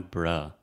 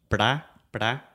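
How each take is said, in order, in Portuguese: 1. A vogal é um som de schwa relaxado. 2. A vogal é um som de 'a' aberto e completo. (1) "esse aqui é o som do schwa, que é o som bem relaxado" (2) "Em português, é o som do a, como prato"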